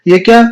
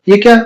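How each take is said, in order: Both takes have the same delivery.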